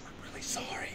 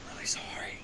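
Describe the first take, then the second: First: Hushed whispered apology; whispering. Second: Breathy whispered apology after a laugh; whispering. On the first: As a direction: whisper it, leaning in. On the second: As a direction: lean in and whisper it. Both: Acted. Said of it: "I gotta whisper that part".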